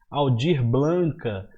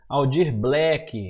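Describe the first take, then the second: First: An extra vowel is added to the surname's end. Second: The surname ends with a k sound. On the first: "Muita gente fala errado" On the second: "Muita gente fala errado"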